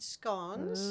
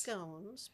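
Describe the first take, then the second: First: Slow "scones" with a short British O. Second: "scones" the American way, rhyming with "bones". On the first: Showing friends how the British say it, "scones" with short O. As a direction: say "scones" the British way, rhyming with "gones". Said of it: "which is how they say it". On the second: Telling friends how we say it, "scones" with long O. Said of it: "We say scones". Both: Shown as a demonstration.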